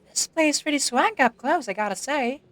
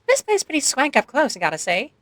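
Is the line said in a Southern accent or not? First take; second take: Southern; not Southern. First: It is said in a Southern accent. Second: It is said without a Southern accent.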